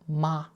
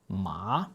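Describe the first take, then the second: First: The pitch stays high and level. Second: The pitch rises from mid to high. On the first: It means mother. "This is a high, steady note" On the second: It means hand. "this note rises like you're asking a question"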